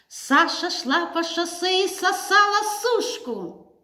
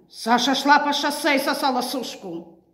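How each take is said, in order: First: It is said as an emphatic exclamation. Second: It is said in an aggressive, hostile tone. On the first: "Восклицательно" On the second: "Агрессивно"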